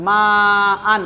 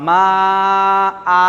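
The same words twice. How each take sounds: First: মা held long, then আন closed on an n; continuous-reading form. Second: মা held long, then আ drawn out without n; pausal elongation. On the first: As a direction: stretch the vowel of মা, end আন with n. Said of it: "মাদ্দে মুত্তাসিলের জন্য মা আন আছে". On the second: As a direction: stretch মা, stop on an open long আ. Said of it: "আলিফ মাদ্দার মতো করে টান দিয়ে". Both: Shown as a demonstration.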